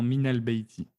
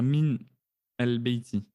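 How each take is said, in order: First: Min links to the next word with a vowel. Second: Min ends abruptly with no linking vowel. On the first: The speaker calls it right. "on va faire la liaison en disant min el beiti" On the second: The speaker calls it wrong. "on ne peut pas dire min el beiti"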